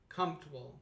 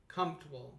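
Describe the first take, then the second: First: One syllable of the word is dropped. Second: One syllable of the word is dropped.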